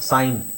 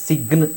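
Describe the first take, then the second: First: The g sound is silent before the n. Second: The g sound is pronounced before the n. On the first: The speaker calls it right. "ಜಿ ಇಲ್ಲ" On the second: The speaker calls it wrong. "ಸಿಗ್ನ್ ಅಂತ ಹೇಳಲ್ಲ"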